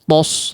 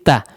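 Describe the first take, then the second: First: The syllable sounds heavy and thick, like tos. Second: The syllable sounds light and thin, like ta. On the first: The speaker calls it wrong. "jangan sampai mempengaruhi huruf sebelumnya" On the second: The speaker calls it right. "Tapi ta"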